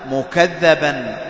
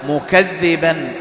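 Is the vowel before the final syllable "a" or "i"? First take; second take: a; i. First: The doubled dh is followed by an a vowel. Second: The doubled dh is followed by an i vowel. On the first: Other people call him a liar. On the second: He himself is the one who belies.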